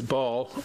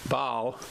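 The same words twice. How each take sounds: First: It is said in an Eastern accent. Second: It is said in a Midwestern accent.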